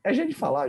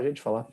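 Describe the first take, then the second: First: Emphatic defence. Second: Said in the usual way. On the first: Real, not acted.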